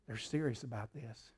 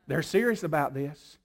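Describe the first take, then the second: First: Soft, low and hushed; hushed awe. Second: Said in the usual way. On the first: Retold or imitated. Devil taking note of serious prayer, hushed. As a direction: murmur it in awe. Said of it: "quiet take vs loud". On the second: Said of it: "second take".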